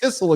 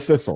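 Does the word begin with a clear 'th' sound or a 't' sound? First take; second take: t sound; th sound. First: The first sound is a plain t sound. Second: The first sound is a clear th sound. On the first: The speaker has trouble saying th. The speaker calls it wrong. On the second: The word is said correctly. The speaker calls it right.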